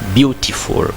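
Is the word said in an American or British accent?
British. It is said with a British accent. "in British you can say"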